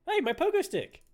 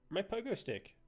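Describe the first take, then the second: First: High, loud outraged yell; indignant shout. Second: Quietly notice the loss; a soft, let-down "My pogo stick."; dismayed murmur. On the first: Gamer yelling at the character who took his stick, outraged shout. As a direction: cry out at the thief. Protests item being taken. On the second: Gamer realizing his item is gone, soft murmur. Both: Real, not acted.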